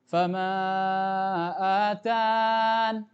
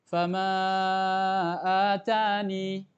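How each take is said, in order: First: The word ends with a held 'n' sound. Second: The word ends with a long 'ee' vowel. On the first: "dengan menghilangkan ya-nya" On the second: "Boleh, satu opsi"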